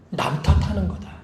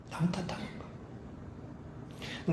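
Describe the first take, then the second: First: Said in the usual way. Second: Whispered repeat. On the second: Shown as a demonstration. Preacher to congregation, hushing the key point in a slow whisper. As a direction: whisper the phrase back, slow and hushed.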